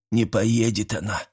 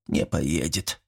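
First: Put-on mildly grumbling, upset old man; a touch of gloom, grunted out. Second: Quiet and low, full of sad resignation; longing, sad. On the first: Sick old man refusing hospital, mildly upset. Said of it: "огорчённо крякнул Василий". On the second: Old man giving up on the hospital, quiet and sad. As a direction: let it sink, soft and hopeless. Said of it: "с тоской в голосе повторил Митрич". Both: A narrator's reading.

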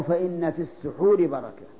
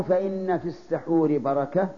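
First: "السحور" with short u after س, phrase falling; damma on sīn. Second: "السحور" with short a after س, phrase left rising; fatha on sīn. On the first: Teacher offering the alternative reading, damma on س in "السحور". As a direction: say "السحور" as as-suḥūr within the phrase. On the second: Teacher quoting the saying as a quiz, fatha on س in "السحور". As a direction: say "السحور" as as-saḥūr within the phrase. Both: Shown as a demonstration. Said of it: "بالضم ولا بالفتح".

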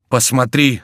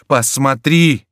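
First: Higher, louder urgent call. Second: Much higher, louder shout; louder cry. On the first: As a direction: call a friend over in alarm. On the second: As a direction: shout it out in horror. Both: A narrator's reading. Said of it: "сказал Антраге".

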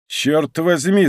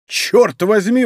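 First: Slow, drawn-out hostile oath; a touch of hostility, slowly. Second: Higher, louder startled oath; exclaimed. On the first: D'Artagnan to Monk over the burning house, slow mild hostility. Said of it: "враждебно взглянув на него". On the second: D'Artagnan recognizing Athos's voice, excited exclamation. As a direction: burst out in recognition. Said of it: "воскликнул Д'Артаньян". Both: Acted.

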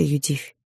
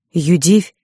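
First: Said in the usual way. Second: Louder rising call of the name; anguished cry. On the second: Acted. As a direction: cry out her name in grief. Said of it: "С криком". (крик отца, громче, с подъёмом)

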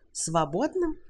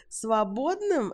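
First: Rising disbelieving question; incredulous echo. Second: Slow, high outraged cry; man trapped in a room, shouting; indignant shout. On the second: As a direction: fling the word back at her. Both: A narrator's reading. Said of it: "закричал Уилт".

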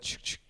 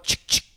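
First: Quiet imitated shotgun pump; gun cocking. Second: Imitated shotgun pump; gun cocking. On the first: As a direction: softly mouth a gun cocking. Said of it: "You know what that is?". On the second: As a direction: mouth click of a shotgun cocking. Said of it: "You didn't see me cock my shotgun?".

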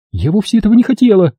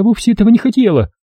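First: Higher and quicker, insistent; repeating it. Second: Higher, pleading self-excuse; justifying herself. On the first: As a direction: say it again, faster, pleading. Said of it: "повторила она". (вдова повторяет оправдание быстрее) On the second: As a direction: excuse yourself, half to yourself. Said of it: "стала она оправдываться". (вдова оправдывается перед собой) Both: A narrator's reading.

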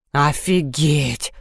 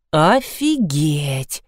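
First: Very slow, low stretched drawl; drawled again. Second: Slow, stretched-out drawl. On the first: Seryozha repeats his reaction, lower and slower drawl. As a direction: drag it out even lower in disbelief. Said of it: "повторил Серёжка". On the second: Seryozha reacts to the toy sheep story, slow drawn-out drawl. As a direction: drag the word out in disbelief. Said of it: "протянул Серёжка". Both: A narrator's reading.

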